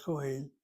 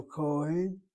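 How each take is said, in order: First: "Cohen" with the stress moved onto the last syllable, hen; wrong final stress. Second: "Cohen" stressed on its first syllable. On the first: Teacher showing the misreading to avoid, final-syllable stress on "Cohen". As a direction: push the weight onto the end of "Cohen". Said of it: "not Cohen". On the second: Teacher showing students where the accent falls, first-syllable stress on "Cohen". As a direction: lean on the Co in "Cohen". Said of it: "accent in the word Cohen be over that first syllable". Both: Shown as a demonstration.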